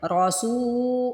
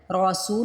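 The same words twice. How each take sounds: First: رسو chanted higher with a long held oo; stretched vowel. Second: رسو said short, سو not stretched; wrong short vowel. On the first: Teacher correcting the short reading, long-held رسو. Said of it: "سو کو کھینچنا ہے". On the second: Teacher showing what not to read, short رسو. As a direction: cut the oo of رسو short, spoken not chanted. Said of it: "رسو نہیں پڑھیں". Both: Shown as a demonstration.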